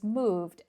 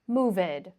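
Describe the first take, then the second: First: The ending is a plain d sound, no syllable. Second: The ending is an extra syllable, like id. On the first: The speaker calls it right. "It's moved and lived" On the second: The speaker calls it wrong. "these verbs are not moved or livid, okay? That's incorrect"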